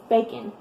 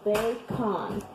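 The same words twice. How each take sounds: First: The second syllable's vowel is muffled and quick. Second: The second syllable's vowel is said clearly. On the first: This is how it is said in everyday conversation. "in conversation, we just say bacon" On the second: This follows how the word is spelled. "But we don't say it like that"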